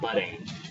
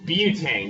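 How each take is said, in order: First: The first syllable sounds like 'butt'. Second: The first syllable sounds like 'byoo'. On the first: The speaker calls it wrong. "not butane" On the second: The speaker calls it right. "But butane"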